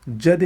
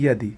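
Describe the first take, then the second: First: जदि opening with a j sound; hard j to start जदि; wrong pronunciation. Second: यदि opening with a y glide; correct pronunciation. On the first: (जदि में "ज" की ध्वनि) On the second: (यदि में "य" की ध्वनि) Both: Shown as a demonstration. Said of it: "नहीं".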